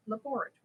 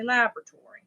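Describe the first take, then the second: First: "laboratory" said luh-BOR-uh-tory, quickly; own pronunciation of laboratory. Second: "laboratory" said LAB-ruh-tory, first syllable stressed; others' pronunciation of laboratory. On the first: Contrasting own way with others', "laboratory" as luh-BOR-uh-tory. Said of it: "I say laboratory". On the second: Showing how some people say it, "laboratory" as LAB-ruh-tory. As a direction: punch LAB at the start of "laboratory". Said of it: "Some people say". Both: Shown as a demonstration.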